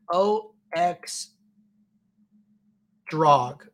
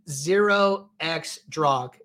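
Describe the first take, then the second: First: "O X Drog" with the first character as the letter O, slowly; tentative pronunciation. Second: "zero X Drog" with the first character said as zero; corrected pronunciation. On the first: Host guessing how a viewer's username is said, tentative pronunciation. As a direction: sound out "O X Drog" slowly, pausing before "Drog". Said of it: "let me know how to pronounce it". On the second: Host relaying the pronunciation viewers gave, corrected pronunciation. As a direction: say "zero X Drog", the digit as a full word. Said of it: "so the pronunciation is".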